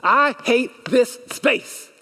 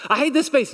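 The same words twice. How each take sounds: First: I hate this space, slow and higher, leaning on every word; slow emphatic declaration. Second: I hate this space again quicker, higher and punchier; emphatic repeat. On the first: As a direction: drag out I hate this space like a congregation chant. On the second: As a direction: snap the echo back at normal speed. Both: Shown as a demonstration. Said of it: "Say it with me".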